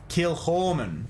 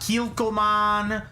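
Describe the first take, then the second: First: The middle consonant is a throaty ch sound. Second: The middle consonant is a plain k sound. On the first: The speaker calls it right. "there's supposed to be a little bit of ch in it" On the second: The speaker calls it wrong.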